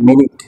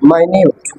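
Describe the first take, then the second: First: It begins with a short 'min', like 'minit'. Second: It begins with 'my', like 'my-newt'. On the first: A unit of time. "এটা সময়কে বোঝায় মিনিট" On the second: Something very small or fine. "এটা উচ্চারণ হচ্ছে মাইনিউট"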